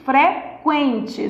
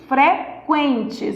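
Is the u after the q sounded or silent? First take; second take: sounded; sounded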